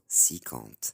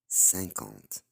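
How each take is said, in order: First: The first vowel is a plain 'ee' sound. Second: The first vowel is a nasal vowel. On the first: The speaker calls it wrong. "ينطقوها بالسي. هي غلط" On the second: The speaker calls it right. "النطق الصحيح هو cinquante بالان"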